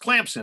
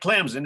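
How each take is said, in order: First: It is said with a P sound. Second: It is said without a P sound. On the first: The speaker calls it right. "I don't see a P in there" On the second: The speaker calls it wrong. "It's not Clemson"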